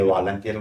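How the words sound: The first word is said with an L sound.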